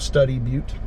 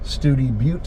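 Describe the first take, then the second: First: The first vowel sounds like 'stud'. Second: The first vowel sounds like 'stew'. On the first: The speaker calls it wrong. "instead of Study Butte" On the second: The speaker calls it right. "hence why this is Studi Butte"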